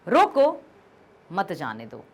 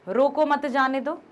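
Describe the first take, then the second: First: There is a pause after the first word. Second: It is read straight through without a pause. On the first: "मान लीजिए हमने यहां पर coma लगा दिया" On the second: "पहले कोई विराम चिन्ह नहीं लगाया मैंने अभी।"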